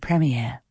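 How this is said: It is said with a British accent.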